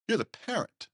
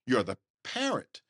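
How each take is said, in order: First: You're jumps very high, then the words fall; You're pitched way up as a rebuke; stress on you're. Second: Parent lands firmly with a rise; stress on parent. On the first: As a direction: hit You're hard and high. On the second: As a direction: lean on parent, not You're. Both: Acted. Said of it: "repeats the phrase twice".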